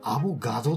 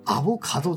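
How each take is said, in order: First: The third syllable is a voiced ga. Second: The third syllable is a voiceless ka. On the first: The speaker calls it wrong. "10 人中3 人ぐらいはアボガドって呼んでますね" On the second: The speaker calls it right. "正しくはアボカドですね"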